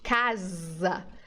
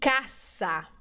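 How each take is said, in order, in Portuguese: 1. O s do meio soa como z. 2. O s do meio soa como s. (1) "No português, às vezes, nós transformamos o S no som de Z" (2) "No espanhol, essas palavras têm que ter som de S sempre"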